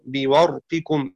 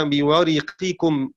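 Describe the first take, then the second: First: بورقكم with the ra silent, said slowly as bi-warqikum; slow recitation of بورقكم with a still ra and no vowel after it; Shu'ba's reading. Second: بورقكم with a kasra on the ra, said slowly as bi-wariqikum; slow recitation of بورقكم with the ra voweled i; Hafs's reading. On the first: Teacher recites Shu'ba's reading for students, slow بورقكم with silent ra. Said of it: "قرأ شعبة بإسكان الراء". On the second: Teacher recites Hafs's reading for students, slow بورقكم with kasra on ra. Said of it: "وقرأ حفص بكسرها". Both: Shown as a demonstration.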